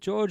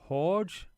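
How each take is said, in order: First: The name begins with a J sound. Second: The name begins with an H sound.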